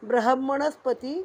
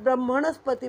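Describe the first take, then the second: First: The h sound comes before the m. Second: The m sound comes before the h. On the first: The speaker calls it right. "हचा उच्चार आधी करावयाचा आहे" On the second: The speaker calls it wrong. "आपण आधी मचा उच्चार करतो"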